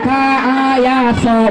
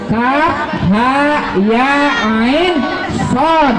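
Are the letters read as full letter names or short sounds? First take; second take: short sounds; full names. First: Each letter is read as a short clipped sound. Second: Each letter is read with its full letter name. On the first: The speaker calls it wrong. "bukan ka, a, ya, so, bukan" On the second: The speaker calls it right. "tapi a, kaf, ha, ya, ain, sod"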